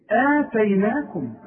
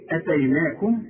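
First: آتيناكم with a long drawn first vowel, slow; long opening alef. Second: أتيناكم with a short first vowel; short hamza. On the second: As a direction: start أتيناكم on a quick, unstretched a. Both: Shown as a demonstration. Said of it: "في فرق شاسع جدًا".

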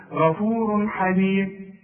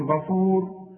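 First: غفور حليم linked as ghafurun halim, tanween sounded; joined form. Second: غفور stopped on a silent r, no tanween; pausal form. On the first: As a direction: run غفور into حليم with a clear un ending. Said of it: "هنوصل هنقول". (غفور حليم بالوصل وتنوين مظهر) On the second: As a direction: end غفور at the ر as if pausing. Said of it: "هتقف هتقول". (غفور بالوقف من غير تنوين) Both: Shown as a demonstration.

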